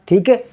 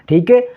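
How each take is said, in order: The two takes are said the same way.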